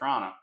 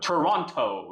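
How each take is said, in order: First: The T sounds are soft or dropped. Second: The T sounds are sharp and crisp.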